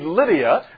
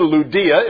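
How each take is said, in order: First: The name is said with the usual English pronunciation. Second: The name is said with a Greek pronunciation.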